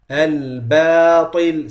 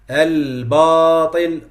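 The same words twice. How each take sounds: First: The b sound is light and thin. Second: The b sound is heavy and thick. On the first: The speaker calls it right. "The ta is heavy, the ba is not" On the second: The speaker calls it wrong. "making it heavy"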